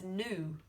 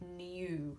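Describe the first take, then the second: First: A plain 'oo' vowel with no 'y' sound. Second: A 'y' glide comes before the 'oo' vowel. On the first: "in America, they actually would say this word as knew" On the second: "So we say new"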